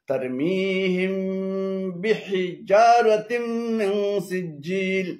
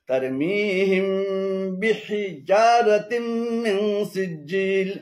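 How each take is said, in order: The two takes are said the same way.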